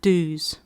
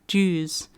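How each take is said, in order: First: The word is said with a non-Australian pronunciation. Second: The word is said with an Australian pronunciation. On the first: "not Dews" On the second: "my Australian accent, we say Dews"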